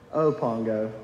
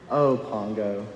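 First: Low, tired repeat of the name; defeated sigh. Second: Low, weary sigh of a name; a worn-out mother dog giving up; defeated sigh. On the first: Purdy to Pongo again, lower and wearier. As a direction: let it sink, even more worn out. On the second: Purdy to Pongo, defeated and low. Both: Retold or imitated. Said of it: "with such a defeated tone".

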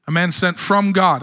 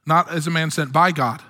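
First: "from" appuyé en fin de phrase; stress on from. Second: "by" appuyé, ton descendant; stress on by. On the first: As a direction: lean on "from" to contrast. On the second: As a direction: insist on "by" to contrast. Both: Shown as a demonstration.

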